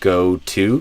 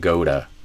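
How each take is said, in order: First: The word to keeps its full clear vowel. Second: The word to is shortened to a weak t. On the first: "instead of the full two" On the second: "might become a t"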